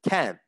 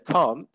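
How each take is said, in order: First: The vowel is a short American 'a' sound. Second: The vowel is a long British 'ah' sound. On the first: "They would say can't" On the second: "an American person wouldn't say can't"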